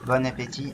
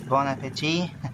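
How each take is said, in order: First: It is said with a French accent. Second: It is said with an English accent. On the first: "in my French accent" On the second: "in English accent"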